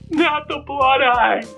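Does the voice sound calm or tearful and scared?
tearful, scared. It is said in a tearful, frightened voice.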